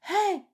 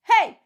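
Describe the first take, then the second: First: The voice sounds thin, without ringing resonance. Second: The voice sounds full, with ringing resonance. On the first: The speaker calls it wrong. "C'est pas Hey!" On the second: The speaker calls it right. "il faut que ça soit timbré"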